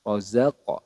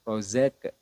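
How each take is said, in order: First: The q sound is released with a bounce. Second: The final sound stops flat without bouncing. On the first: The speaker calls it right. "Jadi dipantulkan ke huruf atau ke makhraj aslinya" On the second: The speaker calls it wrong. "kesalahan yang sering terjadi"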